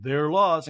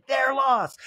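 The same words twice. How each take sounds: First: Said in the usual way. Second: High-pitched echoing impression; [name]. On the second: Housewife echoing her friend's verdict, high put-on voice. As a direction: repeat it high and emphatic.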